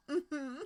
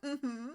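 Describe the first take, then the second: No difference in how they are said.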